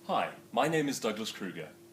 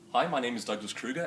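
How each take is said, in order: First: It is said unhurriedly, taking more time. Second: It is said hurriedly, with little time taken.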